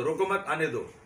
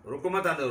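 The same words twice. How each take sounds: First: Louder and higher, रोको मत together, break before आने दो; comma after मत. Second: Louder, break after रोको, then मत आने दो together; comma after रोको. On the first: Politician demonstrating a moved comma, break after मत. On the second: Politician demonstrating a moved comma, break after रोको. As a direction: say "रोको, मत आने दो" as a firm order. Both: Shown as a demonstration. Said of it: "comma यहाँ से वहाँ लगा दो".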